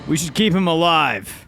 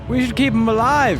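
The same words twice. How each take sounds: First: It is said in a natural speaking voice. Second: It is said in a put-on character voice. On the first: The speaker calls it right. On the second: The speaker calls it wrong.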